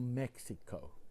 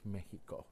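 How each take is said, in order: First: The word is said with English pronunciation. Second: The word is said with Spanish pronunciation. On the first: The speaker calls it wrong. "It's not Mexico" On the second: The speaker calls it right. "In Spanish, it's Mexico"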